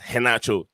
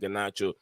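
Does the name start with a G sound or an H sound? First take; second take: H sound; G sound. First: The name begins with a breathy H sound. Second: The name begins with a hard G sound. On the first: The speaker calls it right. "The right pronunciation is Henacho" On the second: The speaker calls it wrong. "it's not Ganacho... people call him Ganacho"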